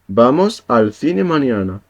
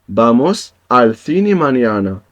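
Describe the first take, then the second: The two takes are said the same way.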